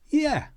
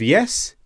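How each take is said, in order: First: The word ends open, with no s. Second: The word ends with a clear s sound. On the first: Casual everyday speech. "these sounds are reduced" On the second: Careful textbook speech. "Instead of yes"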